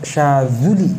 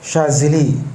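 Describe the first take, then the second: First: The second vowel sounds like 'u'. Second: The second vowel sounds like 'i'. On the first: The speaker calls it right. "yang benar Syazuli" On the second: The speaker calls it wrong. "Syazili biasa disebut"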